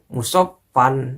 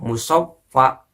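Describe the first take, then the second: First: The word ends with an added n sound. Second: The word ends on a plain vowel. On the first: The speaker calls it wrong. "bukan musaffan" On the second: The speaker calls it right. "Makanya saya baca min asalim musaffa"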